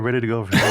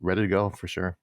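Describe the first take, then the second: First: It is said lively, with high energy. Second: It is said flat, with low energy. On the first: The speaker is eager. "like yeah" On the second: The speaker is tired. "I know it doesn't sound like"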